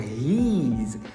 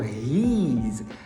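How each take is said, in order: First: It sounds like the contraction he's. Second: It sounds like the contraction he's.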